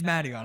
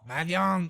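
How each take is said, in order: First: The name is said in a plain accent. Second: The name is said in a French Canadian accent.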